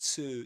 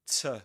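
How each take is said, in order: First: The vowel is a full long 'oo' sound. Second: The vowel is reduced to a weak schwa. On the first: "Before before a vowel sound, we we say to" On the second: "But before a consonant sound or, con or consonant letter, we say t"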